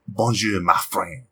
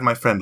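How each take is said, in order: First: Lower, put-on French accent. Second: Said in the usual way. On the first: Shown as a demonstration. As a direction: demonstrate a French-accented greeting. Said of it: "when you're doing a different". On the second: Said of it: "just, just add".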